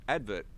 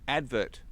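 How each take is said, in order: Both takes have the same delivery.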